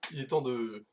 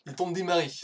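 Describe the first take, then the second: First: Said in the usual way. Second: Louder, higher relaunch of "il est temps de démarrer"; energetic restart. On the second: Shown as a demonstration. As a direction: kick off the talk again with fresh energy. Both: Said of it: "je recommence".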